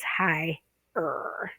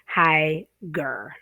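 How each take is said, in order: First: The second syllable starts without any g sound. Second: A hard g sound starts the second syllable. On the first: The speaker calls it right. "it's high-er" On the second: The speaker calls it wrong. "you wouldn't say high-ger"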